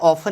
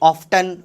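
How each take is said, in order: First: The t sound is left out in the middle. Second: The t sound is pronounced in the middle. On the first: The speaker calls it wrong. "ऑफन नहीं होता है" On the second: The speaker calls it right. "ऑफ्टन होता है भैया"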